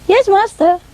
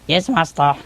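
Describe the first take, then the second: First: High-pitched imitation of a boy; boy's voice. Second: Man's voice. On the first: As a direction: answer high, like a young boy. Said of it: "say it in a boy's voice". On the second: Retold or imitated. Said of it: "say it in a man's voice".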